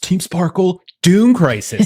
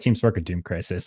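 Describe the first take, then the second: First: There is a pause between Sparkle and Doom. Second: The whole name runs together without a pause. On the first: The speaker calls it right. "Like there's a pause" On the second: The speaker calls it wrong. "it's like one big gulp. That's not how it works"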